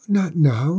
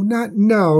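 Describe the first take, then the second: First: Put-on urgent plea to the girl; pleading cry. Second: The plea breaks much higher and louder; higher, louder cry. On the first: Mother dragon begging the maiden, desperate cry. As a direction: beg her to stop, first time. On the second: Mother dragon pleading over her baby, rising anguished cry. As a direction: cry it out, higher and more desperate. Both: A narrator's reading. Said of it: "cried the dragon".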